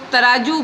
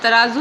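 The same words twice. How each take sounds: First: The middle consonant is a plain j sound. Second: The middle consonant is a z sound. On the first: This is how people commonly say it. The speaker calls it wrong. "अक्सर देखा जाता है कि लोग तराजू बोलते हैं" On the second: This is the proper Urdu form. The speaker calls it right. "तराजू नहीं बोलते"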